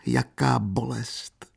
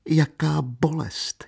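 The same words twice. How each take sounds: First: Slow, higher acted sob; sobbed lament. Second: Much higher, slow acted wail of pain; sobbed lament rising. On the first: Katerina alone weeping convulsively, slow sobbing lament. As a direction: draw the words out in pain, as if sobbing. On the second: Katerina alone weeping convulsively, higher slow sob. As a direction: repeat it higher, grief swelling. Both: A narrator's reading. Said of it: "štkala".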